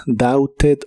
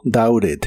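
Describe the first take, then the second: First: First "doubted" as "dauted", clear T; official, T sounded. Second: Second "doubted" as "daured". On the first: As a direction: keep the T in "doubted". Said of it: "La pronunciación oficial es". ("doubted" con T, como "dauted") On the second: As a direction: tap an R for the T in "doubted". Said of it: "este verbo como R". ("doubted" con T como R) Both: Shown as a demonstration.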